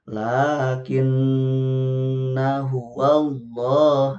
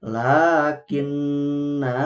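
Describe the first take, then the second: First: Lakinna huwallah chanted slowly, the nol alif kept short; slow melodic Quran reading; correct recitation. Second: Lakinna dragged out very slowly with a long vowel; wrong long reading. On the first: Teacher reciting the right way for the mothers, slow chant. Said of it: "tidak dipanjangkan". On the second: Teacher demonstrating the mistake to avoid, drawn-out chant. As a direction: hold the vowel too long as the error. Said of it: "tidak seperti itu". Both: Shown as a demonstration.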